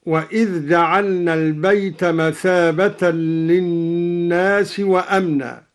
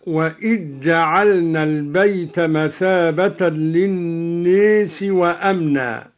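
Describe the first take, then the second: First: Said in the usual way. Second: وإذ جعلنا run together as "wa-ijja'alna"; dhal merged into jim. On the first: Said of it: "قرأ الدوري بإدغام". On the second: Shown as a demonstration. Teacher demonstrating al-Duri's idgham, وإذ جعلنا with doubled jim. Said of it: "قرأ الدوري بإدغام الذال في الجيم هكذا".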